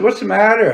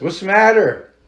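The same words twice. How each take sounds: First: High, louder call, a bit more urgent. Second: High, louder concerned call. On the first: He calls again to the crying woman on the road, high loud urgent call. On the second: He calls to the crying woman on the road, high loud call. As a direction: call out to a stranger in the dark. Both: Retold or imitated.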